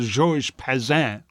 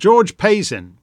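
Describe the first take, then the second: First: The name is said with a French accent. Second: The name is said with an English accent.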